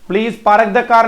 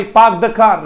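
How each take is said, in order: First: पार्क as "paa-ruk", car as "kaar", every र heard; R's wrongly sounded. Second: पार्क as "paak", car as "khaa", no R sound; silent R. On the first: Teacher shows pupils the mistake, R's pronounced. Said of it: "नहीं होगा भाई". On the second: Teacher corrects pupils' sentence, R's left silent. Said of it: "रह तो बोला ही नहीं जाता". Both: Shown as a demonstration.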